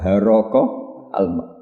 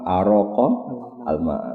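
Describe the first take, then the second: First: The first word begins with an h sound. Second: The first word begins with a glottal stop.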